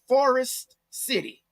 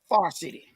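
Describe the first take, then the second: First: The name is said with every syllable in full. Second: The first word is squeezed into one syllable. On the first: This is the official form of the name. "We do not call it Forest City" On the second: This is how locals actually say it. "We call it Far City"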